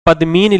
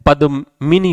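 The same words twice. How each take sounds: First: पद्मिनी said "padmeen", long middle vowel, faint ending; wrong form "padmeen". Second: पद्मिनी said slowly "padu-mini", short middle i; correct form. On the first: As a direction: run पद्मिनी together as "pad-meen". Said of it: "पद्मिनी लिखा है". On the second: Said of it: "पद्मिनी होता है". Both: Shown as a demonstration.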